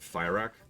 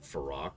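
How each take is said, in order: First: The first syllable sounds like fire. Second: The first syllable sounds like fur. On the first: The speaker calls it right. "we keep pronouncing it Fyrak" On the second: The speaker calls it wrong. "voice acting that pronounces it Farak"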